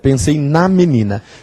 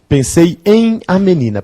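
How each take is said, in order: First: The preposition and article are contracted together. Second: The preposition and article are said separately.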